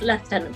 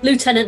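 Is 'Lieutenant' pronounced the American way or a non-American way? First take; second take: non-American; American. First: The word is pronounced with a non-American accent. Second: The word is pronounced with an American accent. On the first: The speaker calls it wrong. "not Lieutenant" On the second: The speaker calls it right. "it's Lieutenant, ... because he's American"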